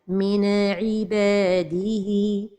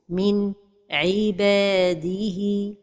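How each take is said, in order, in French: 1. Le son n est rebondi, avec un écho. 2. Il y a une pause après le son n. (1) "La première erreur, c'est القلقلة de النون الساكنة" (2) "La troisième erreur, c'est la pause"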